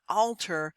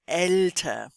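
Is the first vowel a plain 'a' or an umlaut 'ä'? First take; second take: plain a; umlaut ä. First: The first vowel is a plain a sound. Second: The first vowel is an ä sound. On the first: The speaker calls it wrong. "not alter" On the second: The speaker calls it right. "but älter"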